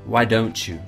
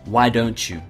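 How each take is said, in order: First: The words run together in connected speech. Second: The same.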